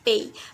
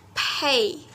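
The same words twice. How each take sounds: First: The p is said without a puff of air. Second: The p is said with a puff of air. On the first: The speaker calls it wrong. "for the beginners study who study English is only read by pay" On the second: The speaker calls it right. "it has aspiration, it's aspirate"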